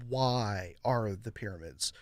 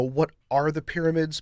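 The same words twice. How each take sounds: First: "Why" stressed, slow and low. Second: "What" stressed as the question word. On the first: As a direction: lean hard on "Why". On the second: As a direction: lean on "What". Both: Shown as a demonstration. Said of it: "But nobody ever asks".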